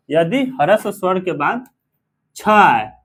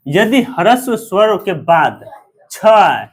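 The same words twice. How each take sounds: First: Said in the usual way. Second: Slow, deliberate rule with छ hit loud; slow stressed rule. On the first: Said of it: "teacher repeating the rule". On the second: Shown as a demonstration. Teacher drilling a grammar rule to students, slow and stressed. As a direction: spell the rule out slowly, punching छ. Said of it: "teacher stating the rule".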